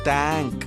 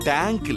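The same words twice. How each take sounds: First: It begins with a soft th sound, like thank. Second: It begins with a plain t sound, like tank. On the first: The speaker calls it right. "தேங்க்ஸ் சொல்லு" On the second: The speaker calls it wrong. "அது என்ன fish டேங்கா இல்ல water டேங்கா? டேங்க் இல்ல"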